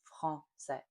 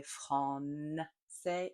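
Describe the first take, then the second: First: Français with nasal a, no N, slow; correct nasal. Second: Français with the N sounded, slow and soft; wrong consonant. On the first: Teacher gives the correct French version, slow. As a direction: say français with a pure nasal vowel. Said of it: "it's français". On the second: Teacher demonstrates learners' mistake, slow and soft. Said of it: "We don't say français". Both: Shown as a demonstration.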